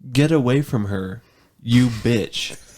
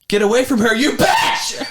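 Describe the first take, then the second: First: The line is read in a flat, plain way. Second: The line is acted like the movie scene.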